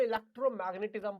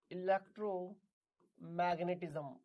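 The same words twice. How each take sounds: First: Said in the usual way. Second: electromagnetism slowly, in two separated parts; slow dictation. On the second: Shown as a demonstration. Repeats term slowly for students.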